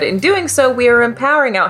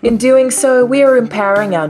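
First: It is read in a normal speaking voice. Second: It is read in a smooth, put-on spokesperson voice.

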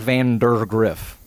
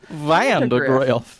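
First: The first part sounds like 'vander'. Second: The first part rhymes with 'panda'. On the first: The speaker calls it wrong. "it's not Vandergriff" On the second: The speaker calls it right. "It's Vanda, like Panda Griff"

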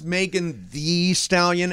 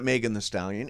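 First: The middle word is said as "thee". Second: The middle word is said as "thuh". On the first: The speaker calls it right. "it is" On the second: The speaker calls it wrong. "It is not"

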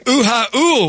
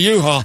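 First: The word is broken into extra vowel syllables. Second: The word is said plainly in two syllables. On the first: It is a mock Hawaiian way of saying it. "I call them uha ools because I'm Hawaiian deep down" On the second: It is the usual way of saying it. "You call it a U-Haul"

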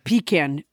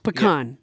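First: The first syllable sounds like 'pee'. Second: The first syllable does not sound like 'pee'. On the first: This calls up something other than the nut. The speaker calls it wrong. "pecan invokes something entirely different" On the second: This is the proper name of the nut. The speaker calls it right. "That's the proper pronunciation"

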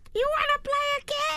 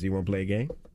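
First: It is said in a put-on Elmo-like voice. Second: It is said in his normal voice.

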